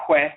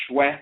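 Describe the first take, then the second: First: "hwe" with a breath of h before the w; HW sound. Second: "shwe" with a hushing sh before the w; SHW sound. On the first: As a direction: say "hwe" with an h-w onset. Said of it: "letter combination H W". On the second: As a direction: say "shwe" with a clear sh-w onset. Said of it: "it can be pronounced like". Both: Shown as a demonstration.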